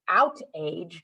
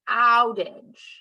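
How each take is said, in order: First: The ending rhymes with page, as two words. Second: The ending is a short reduced 'idge' sound. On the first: The speaker calls it wrong. "out age doesn't make any sense" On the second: The speaker calls it right. "it doesn't say age, it says more of an adge"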